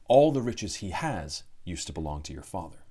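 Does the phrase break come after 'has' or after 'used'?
after has. There is a break after 'has', before 'used'. The riches the giant owns were formerly the father's. The speaker calls it right. "Pyle means"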